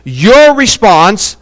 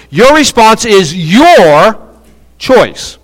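First: "Your response" drawn out slowly, weight on response; first take, stretch the phrase and land on "response"; stress on response. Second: Second "your" punched and drawn out before "choice"; stress on YOUR. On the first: Preacher says it the first of two ways, stressed "response". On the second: Preacher emphasizes a different word for listeners, heavy stress on "your". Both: Shown as a demonstration. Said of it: "I'm gonna emphasize a different word".

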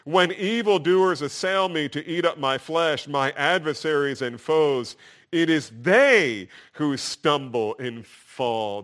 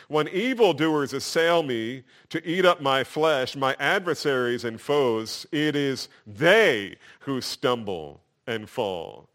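First: "they" punched louder and slower; "they" in "it is they who stumble and fall" stretched out slow and loud, like underlining it; highlighted stress. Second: "they" stressed, slow on the last line; "they" in "it is they who stumble and fall" said slow, rising then falling; emphatic reading. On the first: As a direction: highlight the word "they" with your voice. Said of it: "like taking a highlighter". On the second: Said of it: "just like I read it". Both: Shown as a demonstration.

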